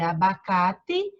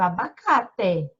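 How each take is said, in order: First: The final vowel sounds like 'i'. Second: The final vowel sounds like a clear 'e'. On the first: "A gente lê abacate" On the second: "mas se escreve abacate"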